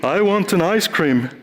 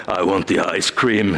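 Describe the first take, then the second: First: Higher, meek little frog asking; a cute frog shyly asks the troll for ice cream; timid frog. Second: Lower, firm insistence on the ice cream; the hero firmly tells the troll what she wants; determined hero. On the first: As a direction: ask for it without much conviction. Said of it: "the troll gets in the way of the frog". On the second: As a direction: say it like you truly want it. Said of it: "since you really want the ice cream". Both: Acted.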